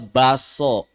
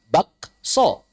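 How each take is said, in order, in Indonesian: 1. Bunyi k sebelum s dihilangkan. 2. Bunyi k sebelum s diucapkan. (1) "Bacanya baso" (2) "Suara aslinya bakso"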